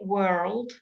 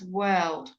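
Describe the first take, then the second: First: It is said with an American accent. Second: It is said with a British accent. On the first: "in America, they say world" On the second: "in British uh, pronunciation, it's world"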